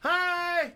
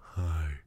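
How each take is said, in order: First: It is said in a higher voice. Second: It is said in a low voice.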